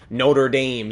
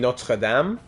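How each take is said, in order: First: It is pronounced with an English-style pronunciation. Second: It is pronounced with a French-style pronunciation. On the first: This is how the school's own community says it. "we pronounce it Notre Dame" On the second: This follows how the name is said in French. "for myself, it'd be Notre Dame"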